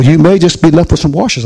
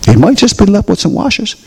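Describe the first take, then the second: First: "may" lifted above the other words; stress on MAY. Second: "might" pitched up high; stress on MIGHT. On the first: Pastor warns about skipping the manual, stressing "may". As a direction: lean on "may" as a possibility. First take of repeated warning. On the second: Pastor repeats the warning to the congregation, higher, stressing "might". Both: Real, not acted.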